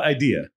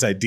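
First: Said in the usual way. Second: Idea said as "idear"; added R. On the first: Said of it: "It's not idea". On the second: Shown as a demonstration. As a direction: put an R on the end of idea. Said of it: "you add an R".

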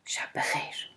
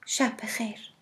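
First: Whispered, surprised شب بخیر. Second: Calm, softer good night; soft, calm شب بخیر. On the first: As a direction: breathe شب بخیر in a startled whisper. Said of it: "با تعجب گفت". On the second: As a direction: say شب بخیر softly and calmly, falling at the end. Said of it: "با لحنی آرام گفت". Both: A narrator's reading.

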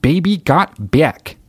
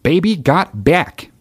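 First: Slow, high folksy Alaskan twang; Sarah Palin accent. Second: Slow, high mock Alaskan twang; Sarah Palin impression. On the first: Retold or imitated. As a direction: stretch each word like Palin singing. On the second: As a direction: drag it out in a folksy Palin accent. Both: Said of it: "She's got that fucking thick accent".

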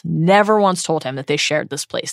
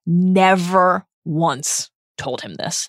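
First: "never" stressed at normal pace. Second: "never" stressed, phrase slowed right down; slow emphatic never. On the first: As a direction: hit "never" and keep moving. Repeated never once, faster. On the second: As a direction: lean on "never" and take it slow. Emphatic repeated never once. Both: Acted.

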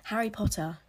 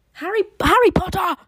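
First: Said in the usual way. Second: Loud, high, hammed-up character cry; film character impression. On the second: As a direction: shout it out as an over-the-top impression. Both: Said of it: "I'm not gonna do my impressions".

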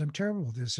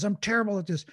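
First: Simply observe the self-critical thought; detached noticing. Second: Mildly voiced inner critic, pitched higher; self-critical inner voice. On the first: Acted. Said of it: "I'm having this voice that says". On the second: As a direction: blurt it like a self-judging thought. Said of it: "this voice that says".

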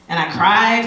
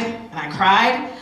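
First: Said in the usual way. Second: "cried" drawn out slowly, rising at the end; slow repeat. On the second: Real, not acted. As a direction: stretch "cried" to let it sink in.

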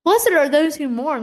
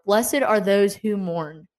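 First: "Blessed" lifted high, the verse pressed home; emphatic repeat. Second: Slow, measured verse quoted from Matthew; unhurried recitation of a Bible verse; slow scripture reading. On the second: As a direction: read each word of the verse slowly. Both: Shown as a demonstration. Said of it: "Matthew five four".

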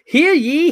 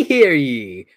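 First: High rising proclamation call; king's proclamation. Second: King's proclamation. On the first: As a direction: call it out high like a royal herald. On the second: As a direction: bring the herald call down to close it. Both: Acted. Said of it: "King of England".

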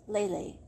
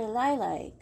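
First: Lai Lai said like "lay lay"; alternative pronunciation attempt. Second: Lai Lai said to rhyme with "lie lie"; first pronunciation attempt. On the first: Narrator unsure of a name, Lai Lai as "lay lay". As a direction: say Lai Lai with an "ay" vowel. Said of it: "I don't know". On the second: Narrator naming a character, Lai Lai with "eye" vowels. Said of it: "I'm not sure". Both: Shown as a demonstration.

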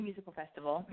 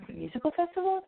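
First: Said in the usual way. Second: "Musical Festival?" pitched high as a puzzled question; "Musical Festival?" in high-pitched disbelief; incredulous self-query. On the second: Real, not acted. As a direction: query your own slip, lifting "Musical Festival?" high. Questions her own slip.

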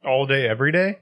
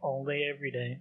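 First: Day rising as a question; All day, every day? asked with a rise. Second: Day falling as a statement; All day, every day. said softer and settled; flat confirming fall. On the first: Question echoed as answer. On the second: Answer echoes the question. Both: Real, not acted.

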